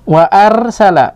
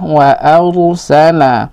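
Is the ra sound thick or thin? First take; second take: thin; thick. First: The ra is pronounced thin and light. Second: The ra is pronounced thick and heavy. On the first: The speaker calls it wrong. "wa arsala itu tipis" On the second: The speaker calls it right. "tapi yang betul ada wa arsala"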